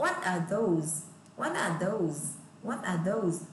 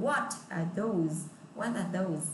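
First: "What are those?" with pitch going down at the end; falling tune. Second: Slow "What are those?" falling at the end; falling tune. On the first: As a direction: let the question drop down. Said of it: "Đó, xuống giọng". ("What are those?" xuống giọng ở cuối) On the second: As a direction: bring the voice down at the end. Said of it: "đều phải đọc là xuống giọng". (đọc "What are those?" xuống giọng) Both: Shown as a demonstration.

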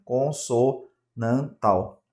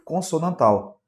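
First: "consonantal" slowly broken into syllables; teacher sounding out "consonantal" piece by piece. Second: Said in the usual way. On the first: Shown as a demonstration. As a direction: spell out "consonantal" in slow, separate beats. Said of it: "existe o dígrafo vocálico também".

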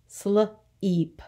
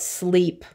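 First: "Sleep" split as sluh, then eep; sounded out. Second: Said in the usual way. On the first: Shown as a demonstration. Teacher isolating the long E, "Sleep" sounded out in two parts. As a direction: break "Sleep" before the long vowel. Phonics lesson, word broken up.

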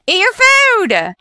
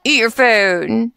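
First: Higher, drawn-out command at the sims; exasperated parent yelling at a toddler; mock scolding yell. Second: Said in the usual way. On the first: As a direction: bark the order slowly like a fed-up parent. Scolding sims who won't eat.

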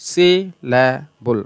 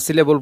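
First: সিলেবল very slow, in three beats: সি, লে, বল; split into syllables. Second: Said in the usual way. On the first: Shown as a demonstration. Teacher repeating the example for students, সিলেবল slowly split up. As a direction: separate সি, লে and বল with long vowels. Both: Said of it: "তিনটা শব্দাংশ".

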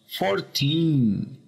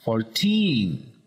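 First: "fourteen" stressed on the first syllable, FOURteen, and slow; wrong stress. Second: "fourteen" said as fourTEEN; stress on last syllable. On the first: Teacher shows the wrong stress, fourteen. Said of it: "no decimos fourteen". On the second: Teacher models right stress, fourteen. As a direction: hit teen in "fourteen". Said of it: "el acento en la última". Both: Shown as a demonstration.

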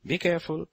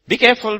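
First: Soft, quiet be careful; gentle warning. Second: Higher, louder cry of be careful; urgent father's warning. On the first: Preacher voicing God's signboard to the congregation, quietly. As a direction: ease the warning out softly. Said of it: "signboards when God wants us". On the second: Preacher voicing God as a father warning his children, loudly. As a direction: call it out like a worried father. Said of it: "a father putting signboards on the road saying". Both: Acted.

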